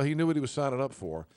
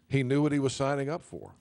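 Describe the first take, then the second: First: The tone is cold and dismissive. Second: The tone is warm and compassionate. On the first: The soldier's death is his own concern. "the way that the media is trying to spin it now" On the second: The soldier was brave and chose his duty. "in a very compassionate way"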